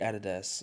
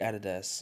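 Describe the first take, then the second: First: It uses the European pronunciation of the name. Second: It uses the European pronunciation of the name.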